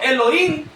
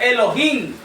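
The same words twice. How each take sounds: First: The H sound is left out entirely. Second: The H is pronounced as an audible sound. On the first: The speaker calls it wrong. "si dijéramos solo Elohim, no se toma en cuenta en lo absoluto la H" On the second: The speaker calls it right. "si tomamos en cuenta la H, se pronuncia Elohim"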